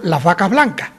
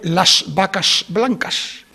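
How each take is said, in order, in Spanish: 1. Las s anteriores suenan aspiradas; la última no se pronuncia. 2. Cada s final se pronuncia claramente. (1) "hacemos una ligera aspiración y la última S no la pronunciamos" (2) "dicen ellos"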